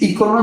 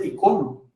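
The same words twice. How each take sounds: First: "icono" stressed on the opening I; stress on first syllable. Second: "icono" stressed on CO; stress on middle syllable. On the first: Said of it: "entonces lleva acento en la primera". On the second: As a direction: say "icono" as i-CÓ-no, accent second-to-last. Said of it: "como se escribe sin acento". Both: Shown as a demonstration.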